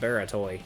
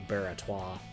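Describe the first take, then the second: First: The name ends with an 'oy' sound. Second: The name ends with a 'wah' sound. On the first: The speaker calls it wrong. "I think I've been pronouncing that Baratoy in previous videos" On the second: The speaker calls it right. "I think it's supposed to be Baratois"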